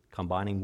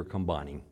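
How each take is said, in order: First: "Combining" stressed on the first syllable, COM-bining; full open first syllable in "Combining", stress on COM; corrected syllable stress. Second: "combining" stressed on the second syllable, com-BINE-ing; weak first syllable in "combining", stress on BINE; wrong syllable stressed. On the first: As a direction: say "Combining" as KOM-bine-ing. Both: Real, not acted. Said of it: "the wrong emphasis on the wrong syllable".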